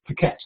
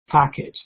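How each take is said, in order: First: The stress is on the second syllable. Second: The stress is on the first syllable. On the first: The speaker calls it wrong. "put the stress on the wrong syllable" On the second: The speaker calls it right. "the stress on the first syllable"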